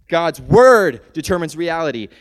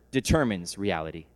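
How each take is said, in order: First: "word" hit hard and loud; louder restatement. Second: Said in the usual way. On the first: Shown as a demonstration. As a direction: drive home "word" with force.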